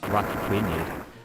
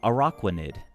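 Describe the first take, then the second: First: The middle of the name sounds like rock. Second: The middle of the name sounds like aqua. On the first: The speaker calls it wrong. "not rock" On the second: The speaker calls it right. "it's aqua, right? So it's like a Araquanid"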